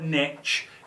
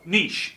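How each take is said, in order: First: It is said the American way. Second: It is said the European way.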